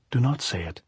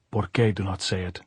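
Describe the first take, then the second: First: Lightly voiced girl's plea; pleading. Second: Put-on understated older woman's retort; lightly voiced, unmoved questioning; challenging echo. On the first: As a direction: implore her to stop, pitched a little up. Maria begs Pilar to stop. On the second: Pilar throws the plea back.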